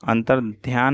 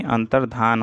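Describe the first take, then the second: First: अंतर्ध्यान ending in "dhyaan"; extra y-glide. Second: अंतर्धान ending in "dhaan"; no y-glide. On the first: Teacher showing the mistake, अंतर्ध्यान with dhyaan. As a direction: put a y in अंतर्ध्यान. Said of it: "अंतर्ध्यान नहीं". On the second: Teacher correcting the word, अंतर्धान with plain dhaan. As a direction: say अंतर्धान without any y. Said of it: "अंतर्धान होता है". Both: Shown as a demonstration.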